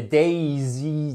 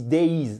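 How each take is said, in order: First: DAISY as a made-up plural with an extra syllable; wrong plural form. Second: DAYS ending in a voiced z, falling; plural form. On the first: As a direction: stretch days into two syllables, DAISY. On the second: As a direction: say DAYS as one syllable, dayz. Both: Shown as a demonstration. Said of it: "ça sera imprononçable si on disait".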